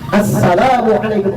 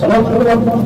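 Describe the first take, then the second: First: It is said slowly with every sound fully pronounced. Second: It is said quickly with clipped, incomplete sounds. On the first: The speaker calls it right. "Yang betul di situ adalah" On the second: The speaker calls it wrong. "Sholat buru-buru"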